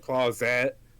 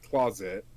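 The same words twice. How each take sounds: First: Its ending is twisted to rhyme with podcast. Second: It is said with its ordinary ending. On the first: "I said closet to make it rhyme with podcast" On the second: "you say closet is just closet"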